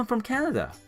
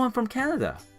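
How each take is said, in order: First: It is said with lively, warm feeling. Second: The same.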